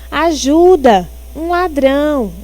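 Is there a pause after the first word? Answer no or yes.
yes. There is a pause after the first word. The speaker calls for help because of a thief. The speaker calls it right. "Ela queria dizer, na verdade"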